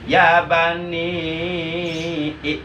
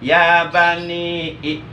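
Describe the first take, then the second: First: The final vowel is held longer, four beats. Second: The final vowel is held briefly, two beats. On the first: "empat harkat" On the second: "dua harkat"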